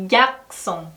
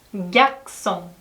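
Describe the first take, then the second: Both takes have the same delivery.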